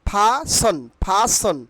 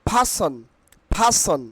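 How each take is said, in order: No difference in how they are said.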